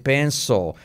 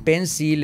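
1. La L se dice a la manera nativa del inglés. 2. La L se dice a la manera española. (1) "en vez de penso" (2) "decir pencil en vez de"

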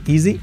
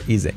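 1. La vocal final es un sonido 'ee' largo. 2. La vocal final es un sonido 'eh' abierto. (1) "Se puede acabar en I" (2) "o en E"

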